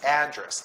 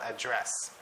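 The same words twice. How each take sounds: First: The stress is on the first syllable. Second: The stress is on the second syllable. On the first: It refers to a place or location. The speaker calls it right. "it should be pronounced as address" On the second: It is the verb form. The speaker calls it wrong. "not address"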